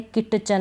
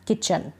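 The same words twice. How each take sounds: First: "किटचन" with the T sounded before CH; mispronounced "किटचन", T not silent; wrong pronunciation. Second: "किचन" with a silent T; correct pronunciation. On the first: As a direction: pronounce a separate T in "किटचन". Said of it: "नहीं किचन". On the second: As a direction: go straight to the CH in "किचन". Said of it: "टी इसमें silent है". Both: Shown as a demonstration.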